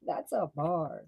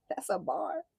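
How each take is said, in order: First: Slow, laughing \"That's a bar.\"; laughing repeat. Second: High, delighted exclaim; hyped reaction. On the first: Reader repeating the line to viewers, laughing. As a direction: savor it slowly through a laugh. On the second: Reader hyping up a taunt, high delight. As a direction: celebrate a good line. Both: Real, not acted.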